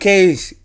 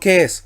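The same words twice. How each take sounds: First: An 'i' sound follows the long vowel. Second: No 'i' sound follows the long vowel. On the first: The speaker calls it right. "leo case ... Porque tenemos la iota furtiva" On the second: The speaker calls it wrong. "y no case"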